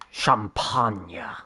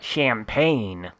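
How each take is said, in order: First: The word is said with a non-American pronunciation. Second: The word is said with an American pronunciation. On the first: The speaker calls it right. "the correct pronunciation" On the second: The speaker calls it wrong. "like we Americans would say"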